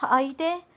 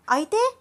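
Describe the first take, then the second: First: Said in the usual way. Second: Much higher, rising panicked repeat; alarmed high rising అయితే; sudden high squeak. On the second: A narrator's reading. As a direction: jump up in alarm on the word. Anu repeats, pitch jumps.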